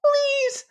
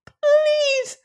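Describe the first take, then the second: First: Very high whispered squeak; a tiny creature breathing a plea; pitiful squeak. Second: Very high voiced squeak, falling; a tiny creature begging aloud; pitiful squeak. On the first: Acted. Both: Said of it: "squeaked the little alien pitifully".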